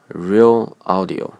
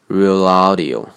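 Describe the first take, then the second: First: The two words are said separately. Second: The l joins the stressed vowel after it.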